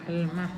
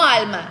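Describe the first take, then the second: First: The stress is on the last syllable. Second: The stress is on the first syllable. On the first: The speaker calls it right. "pero con un acento al final" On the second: The speaker calls it wrong. "no alma"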